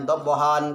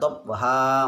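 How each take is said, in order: First: The word ends with an n sound. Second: The word ends with an a vowel. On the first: "itu dia kan dabhan" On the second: "Maka dibaca dabha"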